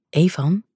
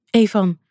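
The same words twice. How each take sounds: First: Said in the usual way. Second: Pleading. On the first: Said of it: "riep ze smekend". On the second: A narrator's reading. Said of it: "riep ze smekend, gillend".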